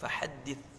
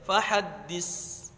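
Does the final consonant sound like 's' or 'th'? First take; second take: th; s. First: The final consonant is a soft 'th' sound. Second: The final consonant is a plain 's' sound. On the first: The speaker calls it right. "harus fahaddits" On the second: The speaker calls it wrong. "saknya jangan dibaca fahaddits, jangan dibaca sin"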